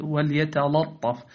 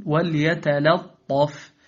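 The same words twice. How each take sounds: First: "وليتلطف" with dark l before the ط; wrongly heavy lam. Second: Slow "وليتلطف", thin l before heavy ط; light lam. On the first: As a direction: let the ط thicken the lam in "وليتلطف". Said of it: "لا تقل". (تفخيم لام "وليتلطف") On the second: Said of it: "بل قل". (ترقيق لام "وليتلطف") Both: Shown as a demonstration.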